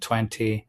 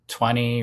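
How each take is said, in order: First: The t after the n is pronounced. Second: The t after the n is dropped. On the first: "rather than" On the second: "we don't pronounce this T if it's preceded by a vowel and an N"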